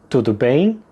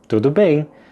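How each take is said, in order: First: It is said with question intonation. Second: It is said with statement intonation. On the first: Asking whether everything is fine. "the question" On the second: Saying that everything is fine. "but with the intonation of a statement, not a question"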